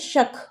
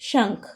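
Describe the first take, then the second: First: The word is said without a nasal sound. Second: The word is said with a nasal sound. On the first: "बिना अनुस्वार के लिखा है" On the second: "अगर हम अनुस्वार लगा देंगे"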